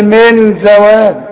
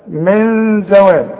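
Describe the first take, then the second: First: The n is pronounced fully with the tongue. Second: The n is hidden and nasalized. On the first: The speaker calls it wrong. "اوعى تقول لي من زوال" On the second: The speaker calls it right. "لا من زوال"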